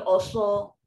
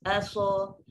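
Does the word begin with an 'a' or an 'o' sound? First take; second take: o; a. First: The first vowel is a heavy, rounded 'o'. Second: The first vowel is a light, thin 'a'. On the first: The speaker calls it wrong. "dia takkan bunyi oso" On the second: The speaker calls it right. "dia takkan jadi tebal, so dia akan bunyi tetap macam tu je"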